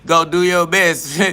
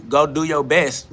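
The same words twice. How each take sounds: First: Laughing it out, slow and mocking. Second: Said in the usual way. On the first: Real, not acted. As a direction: chuckle through the words, drawn out. Repeats line with a laugh.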